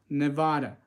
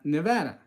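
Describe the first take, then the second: First: It is said the way out-of-staters say it. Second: It is said the way Nevada residents say it. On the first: "they say Nevada" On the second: "if you live in this state, you pronounce Nevada"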